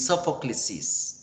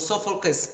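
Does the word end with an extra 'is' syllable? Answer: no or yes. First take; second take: yes; no. First: The word ends with an added 'is' syllable. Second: The word ends without an added syllable. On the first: The speaker calls it wrong. "No digo ... ni Sophoclesis" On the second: The speaker calls it right. "no cambie pronunciación"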